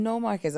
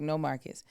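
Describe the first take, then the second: First: Put-on high, light Asian-accented "No Marcus"; imitating Asian accent. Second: Said in the usual way. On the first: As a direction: echo the director's accented greeting. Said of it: "he's got a thick accent".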